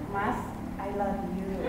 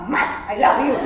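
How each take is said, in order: First: It is said in a soft, normal voice. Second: It is said loudly, almost shouted.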